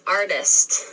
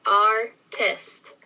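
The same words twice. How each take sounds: First: Said in the usual way. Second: "Artist" broken into ar, tist; split into syllables. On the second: Shown as a demonstration. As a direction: say "Artist" in two distinct beats. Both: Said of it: "break down those syllables".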